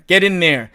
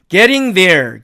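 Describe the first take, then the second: First: The ending blends into an n sound. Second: The -ing ending is said in full. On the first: "이렇게 음운 변화가 생겨버린 거예요" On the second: "발음을 해보니까 발음이 걸리적거리죠"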